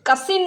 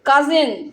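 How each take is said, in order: First: The middle consonant is an s sound. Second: The middle consonant is a z sound. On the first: The speaker calls it wrong. "কাসিন নয়" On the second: The speaker calls it right. "কি উচ্চারণটা? কাজিন।"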